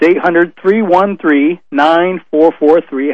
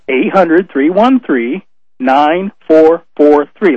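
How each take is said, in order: First: The number is said fast. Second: The number is said slowly.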